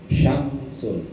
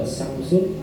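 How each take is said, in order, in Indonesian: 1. Kata ini diawali dengan bunyi sh. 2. Kata ini diawali dengan bunyi s. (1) "kalau pakai shin tebal syamsun berarti matahari" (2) "sinnya sin tipis semua"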